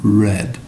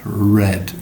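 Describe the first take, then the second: No difference in how they are said.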